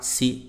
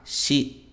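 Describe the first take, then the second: First: The syllable starts with a plain s sound. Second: The syllable starts with an sh sound. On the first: The speaker calls it wrong. "No japonês não existe si" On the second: The speaker calls it right. "Então fica sa, shi"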